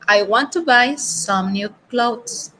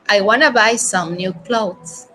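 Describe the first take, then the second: First: 'Want to' is said as two full words. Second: 'Want to' is run together as 'wanna'.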